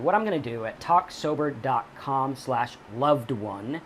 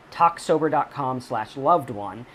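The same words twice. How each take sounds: First: Said in the usual way. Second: Slowed url read. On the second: Shown as a demonstration.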